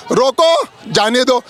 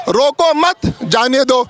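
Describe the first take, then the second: First: "रोको" set apart, then "जाने दो"; pause after रोको. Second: "रोको मत" said as one phrase, then "जाने दो"; group मत with रोको, break, then जाने दो; pause after मत. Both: Shown as a demonstration. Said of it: "मत और आ की मात्राओं का फर्क है".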